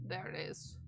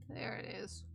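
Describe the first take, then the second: First: Whispered find. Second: Said in the usual way. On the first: Real, not acted. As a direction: whisper it as you spot it. Phrase said twice, first whispered.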